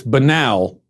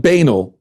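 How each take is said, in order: First: "banal" as buh-NAL, stress on second syllable; correct pronunciation. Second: "banal" as BAY-nul, stress on first syllable; wrong pronunciation shown. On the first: Host corrects the politician's word, clearly saying buh-NAL. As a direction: say "banal" to rhyme with canal. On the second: Host shows how not to say it, BAY-nul. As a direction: say "banal" with a long BAY up front. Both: Shown as a demonstration. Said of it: "it's not banal".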